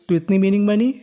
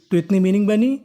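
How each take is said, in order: Both takes have the same delivery.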